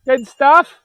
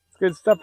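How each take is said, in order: First: Good stuff in a high, loud, rising voice; delighted, higher and louder. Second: Said in the usual way. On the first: Real, not acted. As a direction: exclaim it with glee. Delight at animals on pasture.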